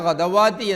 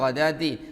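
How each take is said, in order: First: A w sound comes before the long a. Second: There is no w sound in the middle. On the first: The speaker calls it wrong. "പിഴവാക്കി" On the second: The speaker calls it right. "ഗദാത്തി എന്നല്ലാതെ"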